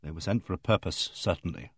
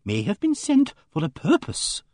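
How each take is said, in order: First: Low, quiet, grim retort. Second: High, earnest lady's voice; pious Emily Barton. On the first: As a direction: drop "sent for a purpose" low and soft, falling. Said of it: "I said grimly". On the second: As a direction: lift "sent for a purpose" high, ending upward. Pious lady voiced in story. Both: A narrator's reading.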